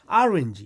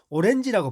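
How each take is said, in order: First: It is said with an American English pronunciation. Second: It is said with a Korean-style pronunciation. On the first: The speaker calls it right. "미국 사람들은 오렌지 이렇게 발음합니다" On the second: The speaker calls it wrong. "오렌지라고 발음하지 않습니다"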